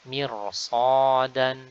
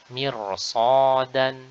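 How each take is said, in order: The two takes are said the same way.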